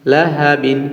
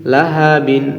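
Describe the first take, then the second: No difference in how they are said.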